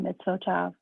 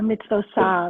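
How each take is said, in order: First: The letter is said with a T sound. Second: The letter is said with an S sound. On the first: "not the mitzvot tav" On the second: "made it an S sound as opposed to a T sound"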